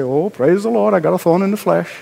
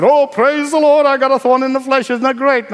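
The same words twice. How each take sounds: First: Glib. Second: Hammed-up cheerful praise; mock glee at a thorn, said too happily; mock joy. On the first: Pretend. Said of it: "glibly say". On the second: Preacher mocking a glib believer, fake excited. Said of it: "Paul did not run around and said".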